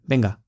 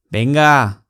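First: The word is said short and clipped. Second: The word is drawn out and long. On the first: The speaker calls it wrong. "不是" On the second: The speaker calls it right. "Venga 比较长"

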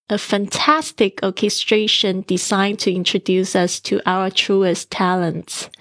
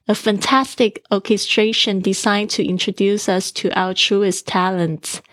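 No difference in how they are said.

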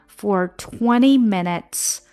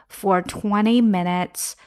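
Both takes have the same delivery.

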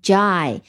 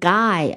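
First: The syllable does not sound like 'guy'. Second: The syllable sounds like the word 'guy'. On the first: The speaker calls it right. "而是读成gi" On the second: The speaker calls it wrong. "gi 不是读成guy"

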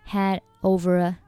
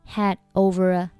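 Both takes have the same delivery.

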